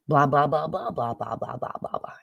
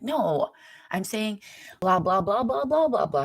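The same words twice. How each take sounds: First: Gibberish blah blah, a bit louder at first; mock gibberish. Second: Much higher, louder insistent blah blah blah; insistent repeat. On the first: Steph's brother explaining, rendered as mock babble. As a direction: mimic the words as meaningless babble. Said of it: "Are you saying blah, blah?". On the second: Retold or imitated. Brother insisting to her, higher and louder babble. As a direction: hammer the babble home, pitch climbing. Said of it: "He's like".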